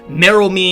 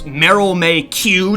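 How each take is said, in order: First: The surname ends in a 'chee' sound. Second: The surname ends in a 'kyoo' sound. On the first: The name is read as it is actually spelled. The speaker calls it right. "It's like pronounced like she or something" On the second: The name is read straight from an early misprinted translation. The speaker calls it wrong. "just like the letter"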